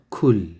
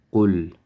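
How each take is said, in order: First: It starts with a plain k sound. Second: It starts with a deep q from the throat. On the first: The speaker calls it wrong. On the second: The speaker calls it right.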